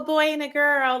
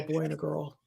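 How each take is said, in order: First: The voice is pitched high, like a soprano. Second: The voice is pitched lower, like an alto. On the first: The speaker calls it wrong. "you just went soprano" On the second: The speaker calls it right.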